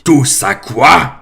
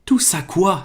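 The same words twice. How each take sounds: First: Slow, much louder booming roar; the giant roars the question back in outrage; thundering. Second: Put-on higher, puzzled question from the boy; Harry, baffled, asks back. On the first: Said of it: "tonna Hagrid". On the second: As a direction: ask it in honest confusion. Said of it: "s'étonna Harry". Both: A narrator's reading.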